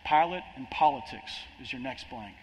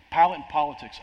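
First: Said in the usual way. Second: Pilate and politics repeated louder, Pilate punched; emphatic repeat. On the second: Shown as a demonstration. Preacher repeating the heading for the congregation, louder stress. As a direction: hit "Pilate" hard on the repeat.

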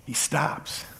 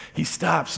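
First: Breathy near-whisper, much softer. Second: Said in the usual way. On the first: Acted. Pastor building suspense over Jesus stopping, whispered. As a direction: let it hang in a hush.

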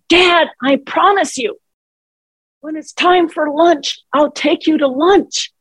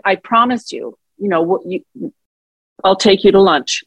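First: High-pitched exasperated promise, retold; retold frustration. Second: Said in the usual way. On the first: Daughter retelling her outburst at forgetful dad, frustrated. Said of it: "I raised my voice. I got frustrated".

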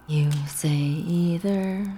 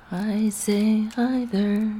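First: Slow sung line, "either" as EE-ther; singing. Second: Slow sung line, "either" as EYE-ther; singing. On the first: Woman sings about a silly disagreement, slow croon, "either" as EE-ther. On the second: Woman sings the other side of a disagreement, "either" as EYE-ther. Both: Acted.

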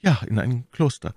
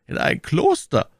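First: "Ja, in ein Kloster" higher than narration; firm reply with a falling close; confirming answer. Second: High, raised query on "In ein Kloster"; "In ein Kloster" as a lifted, startled question; surprised question. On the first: Milady confirms the news. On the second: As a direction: echo the news in astonishment. Duke questions the news. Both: A narrator's reading.

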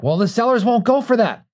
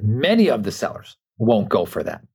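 First: High mock voice of doubting clients; mock protest. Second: "Many" leaned on at the start, the rest said evenly; stress on many. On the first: Mimicking clients who say the sellers won't agree, high mock whine. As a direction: pitch it way up, mocking their objection. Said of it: "And they're like". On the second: Retold or imitated. Coach corrects clients' claim, stressing "Many". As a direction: correct them by hitting "Many". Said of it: "I said".

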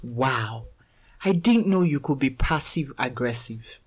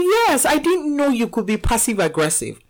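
First: Quiet, dry, unimpressed; deadpan remark. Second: Retelling the son's line with amused emphasis; mock son. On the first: Retold or imitated. A son dryly judging his mom, quiet and unimpressed. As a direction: say it softly and flatly, like a disappointed son. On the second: Mother retelling her son's jab, amused emphasis. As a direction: replay his words a bit brighter, half laughing. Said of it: "He was like".

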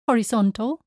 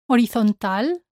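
First: Horizontal as ho-ri-ZON-tul; English pronunciation. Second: Horizontal as o-ree-thon-TAL; Spanish pronunciation. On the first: Teacher contrasts with Spanish, English ho-ri-ZON-tul for horizontal. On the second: Teacher shows learners the Spanish word, o-ree-thon-TAL for Horizontal. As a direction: silent H in Horizontal, stress on final A. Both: Shown as a demonstration. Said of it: "same in English and in Spanish".

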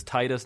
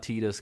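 First: "Titus" rhyming its first syllable with "tie"; Titus as TIE-tus. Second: "Titus" rhyming its first syllable with "tea"; Titus as TEE-tus. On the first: Host defending his own pronunciation, "Titus" as TIE-tus. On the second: Host showing the rejected pronunciation, "Titus" as TEE-tus. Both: Shown as a demonstration. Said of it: "I'll pronounce it however I like".

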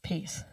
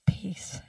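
First: Very soft, low, barely voiced; a quiet closing mantra. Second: Unvoiced whisper of the word; a hushed mantra, just air. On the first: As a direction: let the word settle into silence. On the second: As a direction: breathe it out with no voice. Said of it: "all he did was". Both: Shown as a demonstration.

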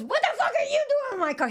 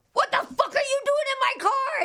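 First: High startled shriek back; man's startled yell. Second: High-pitched shocked shriek; shrieking yell. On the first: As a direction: echo her shriek in alarm. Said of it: "And he goes". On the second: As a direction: scream it at the stranger. Yelling at stranger in car. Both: Retold or imitated.

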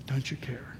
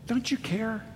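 First: "Don't you care?" as a hushed whisper; "Don't you care?" whispered, low and intimate. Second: Higher, softer pleading "Don't you care?"; "Don't you care?" asked high and soft, rising; pleading question. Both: Acted. Repeating the disciples' cry.

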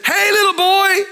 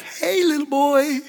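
First: Yelling into a cave. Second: Softer, slower, distant echo of the call; cave echo. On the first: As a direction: shout it out to hear the echo. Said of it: "I want you to yell into that cave". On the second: Cave echoes the boy's call, faint and distant. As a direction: let it come back faint from far away. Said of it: "And the voice came back". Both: Retold or imitated.

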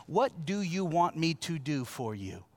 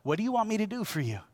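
First: Slow, gentle question. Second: Fast, a little higher, stress on want; quick repeat. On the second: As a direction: rattle the same question off quickly. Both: Shown as a demonstration. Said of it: "Here's the connection".

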